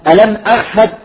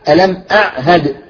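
First: The ayn sounds like a breathy h. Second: The ayn is clear and voiced before the h. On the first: The speaker calls it wrong. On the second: The speaker calls it right.

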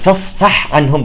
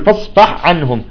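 First: The ha sound is clearly separate from the ain. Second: The ha sound is merged into the following ain. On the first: The speaker calls it right. "يجب أن يعني تظهرها" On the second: The speaker calls it wrong. "بعضهم يقول فاصفح عنهم، بيصير عملية إدغام"

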